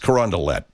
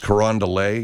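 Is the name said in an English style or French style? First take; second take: English; French. First: The name is said with a local English-style pronunciation. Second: The name is said with a French-style pronunciation. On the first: The speaker calls it right. "no, it's Carondelet" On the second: The speaker calls it wrong. "They don't mess around with the French pronunciation"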